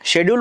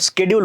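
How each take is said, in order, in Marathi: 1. शब्दाची सुरुवात 'sh' आवाजाने होते. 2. शब्दाची सुरुवात 'sk' आवाजाने होते. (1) "ब्रिटिश इंग्लिश सारखं त्याचा उच्चार" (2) "अमेरिकेच्या इंग्रजी सारखा उच्चार"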